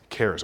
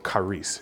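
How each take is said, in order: First: The word is said in a plain, casual way. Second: The word is said with careful, technical pronunciation.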